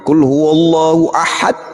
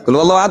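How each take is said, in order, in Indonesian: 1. Dibaca pelan dengan artikulasi yang berat dan hati-hati. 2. Dibaca cepat dengan artikulasi yang ringan dan asal-asalan. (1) "pakai kol-kolanya pun tebal" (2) "Begitu sholat sendirian"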